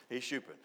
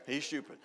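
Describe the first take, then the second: No difference in how they are said.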